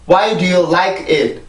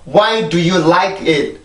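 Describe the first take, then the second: No difference in how they are said.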